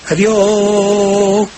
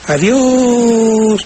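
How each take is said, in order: First: The o is broken into separate repeated beats. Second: The o is held as one long sound. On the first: The speaker calls it wrong. "repetir, hacer una especie como de adiós" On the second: The speaker calls it right. "sino adiós, como lo hiciste tú"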